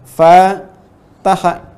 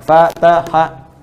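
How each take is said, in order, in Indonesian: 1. Suku kata pertama dibaca lebih panjang. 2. Ketiga suku katanya sama-sama pendek. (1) "fa yang pertama ... dibaca panjang" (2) "tiga berurutan sama seimbang"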